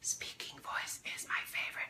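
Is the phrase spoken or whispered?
whispered. The phrase is whispered without full voice. The speaker calls it wrong. "that was your whisper voice. Wrong voice"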